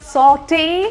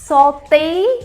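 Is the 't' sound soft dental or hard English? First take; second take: English; dental. First: The t is a hard English sound. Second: The t is a soft dental sound. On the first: The speaker calls it right. "सौटे या सोटे" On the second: The speaker calls it wrong. "ये सोते और सौते सही नहीं है"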